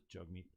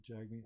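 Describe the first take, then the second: First: Jugmeet with an "uh" as in jug; remembered pronunciation. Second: Jagmeet with an "a" as in jag; questioned pronunciation. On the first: Recalling how the name was said, Jugmeet said softly as "JUG-meet". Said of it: "I thought it was Jugmeet". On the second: Checking the name with the other speaker, Jagmeet said softly as "JAG-meet". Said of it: "how do you say it?". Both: Shown as a demonstration.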